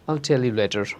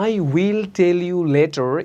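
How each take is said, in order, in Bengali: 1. "I will" একসাথে জুড়ে একটি সিলেবলে বলা হয়। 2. "I will" দুটি পূর্ণ শব্দ হিসেবে বলা হয়।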